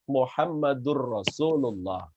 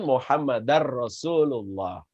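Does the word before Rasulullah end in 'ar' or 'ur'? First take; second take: ur; ar. First: The name ends with an 'ur' sound. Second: The name ends with an 'ar' sound. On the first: The speaker calls it right. "La ilaha illallah Muhammadur Rasulullah" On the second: The speaker calls it wrong. "bukan Muhammadar Rasulullah"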